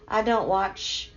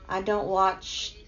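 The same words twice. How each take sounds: The two takes are said the same way.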